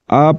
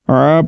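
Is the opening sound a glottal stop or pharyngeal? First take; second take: glottal stop; pharyngeal. First: It starts with a plain glottal catch. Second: It starts with a deep throat sound. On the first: The speaker calls it wrong. "آ نہیں پڑھنا۔ آ پڑھیں گے تو پھر عین نہیں بلکہ حمزہ پڑھا جائے گا" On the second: The speaker calls it right. "عین کی آواز کو نکالنا ہے"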